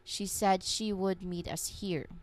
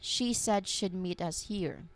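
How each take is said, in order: First: Said slowly with "she would" as two clear words. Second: Said smoothly with "she would" contracted to "she'd". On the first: "say very s- slowly and make sure both words are clear" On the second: "For the assimilated version"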